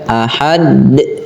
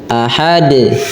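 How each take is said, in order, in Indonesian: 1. Vokalnya dibaca panjang. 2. Vokalnya dibaca pendek saja. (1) "tidak dibaca ahad enggak ... jadi itu panjang" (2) "Biasa saja"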